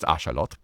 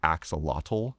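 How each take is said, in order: First: The word is said with non-English sounds. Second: The word is said with familiar English sounds. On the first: This is the way the word is actually pronounced. The speaker calls it right. "It's axolotl" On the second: This is the popular way gamers say it. The speaker calls it wrong. "that whole genre of nerd tends to call the axolotl"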